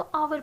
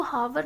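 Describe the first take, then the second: First: आवर starting straight on the vowel; silent h. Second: हावर with an audible h at the start; h wrongly sounded. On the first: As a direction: say hour as आवर, dropping the h. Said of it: "हम इसको आवर pronounce कर रहे हैं". (आवर, बिना ह की आवाज़ के) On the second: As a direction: sound the silent h of hour, as हावर. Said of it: "हावर ना प्रोनाउंस करके". (हावर, शुरू में ह की आवाज़ के साथ) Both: Shown as a demonstration.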